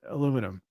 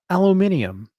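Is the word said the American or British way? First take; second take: American; British. First: It is said the American way, four syllables. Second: It is said the British way, five syllables.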